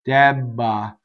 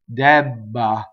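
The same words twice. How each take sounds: First: The voicing continues through the double B. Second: The voicing continues through the double B.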